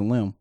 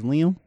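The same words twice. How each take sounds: First: Lim said short, one syllable like limb. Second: Liam said in two syllables, Lee-um. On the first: Host wondering if the actor's name is Lim, one syllable. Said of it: "I don't even know if fucking name is Liam". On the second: Host unsure of the actor's name, trying Liam as Lee-um. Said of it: "or is it Lim?". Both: Shown as a demonstration.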